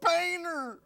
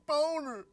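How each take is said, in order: First: The first syllable sounds like 'bay'. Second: The first syllable sounds like 'bone'. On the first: This is how the name really sounds. The speaker calls it right. "It's Boehner" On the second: Someone else says it this way. The speaker calls it wrong. "He keeps on pronouncing it boner"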